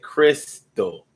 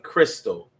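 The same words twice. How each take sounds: First: The name is drawn out slowly. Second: The name is said quickly. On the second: "when you say it fast"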